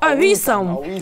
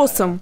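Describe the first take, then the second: First: It is said with three syllables. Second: It is said with two syllables. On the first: "Но Югем читает вот так" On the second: "Знаете слово «осом»?"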